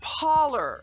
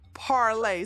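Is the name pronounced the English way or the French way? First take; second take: English; French. First: It is said the English way, ending in 'ler'. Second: It is said the French way, ending in 'lay'. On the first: This is how the news says it. "especially Fox News, they pronounce it Parler" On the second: This is how the owner intended it. "intended it to be pronounced as a French word"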